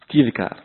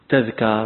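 First: The first syllable has the vowel i. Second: The first syllable has the vowel a. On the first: The speaker calls it wrong. "ولا تقول تذكار كما يقول أكثر القائلين" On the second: The speaker calls it right. "إنما تجيء بفتح التاء"

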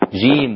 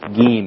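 First: The j sound is a full affricate. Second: The j sound is not an affricate. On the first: The speaker calls it right. "معطشة" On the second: The speaker calls it wrong. "وليست جيم"

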